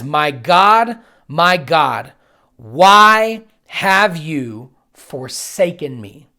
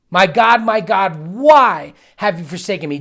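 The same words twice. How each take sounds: First: Slow, loud cry of anguish. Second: Loud pained cry. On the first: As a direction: drag out a loud, pained plea. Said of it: "Jesus cried out in a loud voice". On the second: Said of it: "Jesus screams this". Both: Retold or imitated.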